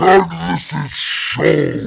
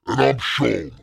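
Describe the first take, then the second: First: It is said very loudly and intensely. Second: It is said calmly at normal volume.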